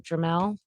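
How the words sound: It is said in a Louisiana accent. "That's my Louisiana accent"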